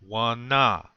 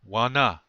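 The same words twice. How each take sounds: First: The word is said slowly. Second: The word is said at normal speed.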